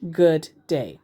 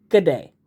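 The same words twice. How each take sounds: First: "Good day" with both words said fully and separately; plain "Good day", no Aussie contraction; full two words. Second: "Good day" squeezed into one quick word, just a G and "day"; a quick, slightly louder Aussie-style "Good day"; Aussie G'day. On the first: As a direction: give "Good day" as two clear separate words, not run together. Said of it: "I accidentally said". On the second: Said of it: "it should have been". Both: Shown as a demonstration.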